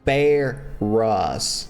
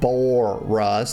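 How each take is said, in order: First: The name is said without an O vowel. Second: The name is said with an O vowel. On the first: The speaker calls it right. "His name is Barus" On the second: The speaker calls it wrong. "not Boris. There's no O in it"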